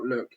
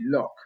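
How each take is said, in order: First: The vowel sounds like the one in 'look'. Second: The vowel sounds like the one in 'lock'. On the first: The speaker calls it wrong. "not Look" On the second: The speaker calls it right. "it's actually Lock"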